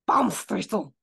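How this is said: It is said with a strong, aggressive German accent.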